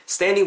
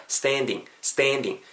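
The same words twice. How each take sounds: First: Said in the usual way. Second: "standing" with a wide, gliding a, like steh-en; drawn-out steh-en in "standing"; spread-lipped vowel. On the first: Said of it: "요렇게 하셔도 되겠지만". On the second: Shown as a demonstration. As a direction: stretch the mouth sideways on the a of "standing". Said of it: "양옆을 옆으로 좀 째시면서".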